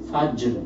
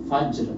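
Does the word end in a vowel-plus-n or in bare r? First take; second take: bare r; bare r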